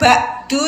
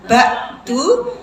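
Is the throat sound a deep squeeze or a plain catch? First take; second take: plain catch; deep squeeze. First: The throat sound is a plain glottal catch. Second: The throat sound is a deep mid-throat squeeze. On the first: The speaker calls it wrong. "bukan ba'du ya" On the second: The speaker calls it right. "ain di tenggorokan tengah"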